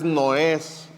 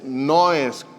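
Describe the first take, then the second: First: The stress is on the second syllable. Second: The stress is on the first syllable. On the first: The speaker calls it wrong. "no es los tres noes" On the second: The speaker calls it right. "es noes con un acento en la O"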